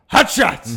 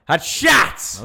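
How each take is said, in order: First: The stress is on hot. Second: The stress is on shots.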